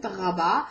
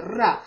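First: "raba" with a throaty French-style r; modern Hebrew r. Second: "ra" with a rolled tongue-tip r. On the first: Teacher showing the modern Hebrew r in "raba". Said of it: "The modern Hebrew accent". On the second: Teacher showing the rolled resh in "ra". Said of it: "while there's a resh here". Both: Shown as a demonstration.

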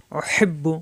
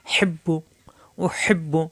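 First: Said in the usual way. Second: Teacher whispers the word উহিব্বু, unvoiced; whispered. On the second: Shown as a demonstration. Teacher to students, whispering উহিব্বু as a demo. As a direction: breathe উহিব্বু out with no voice. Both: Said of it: "পরের বায়ে পেশ বু".

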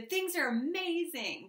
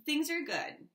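First: High, slow, gushing amazement; overly enthusiastic. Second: Said in the usual way. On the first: Shown as a demonstration. The Aries overselling their life, gushing. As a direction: oversell it with a sweet lift. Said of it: "as opposed to". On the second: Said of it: "just like that".

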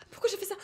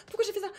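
No difference in how they are said.

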